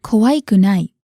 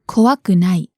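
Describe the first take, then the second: First: 怖くない said wrongly, keeping the final い before くない; the mistaken form, 怖くない with い left in. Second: 怖くない said correctly, い removed before くない; the right form, 怖くない with い dropped. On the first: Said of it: "So it's not". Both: Shown as a demonstration.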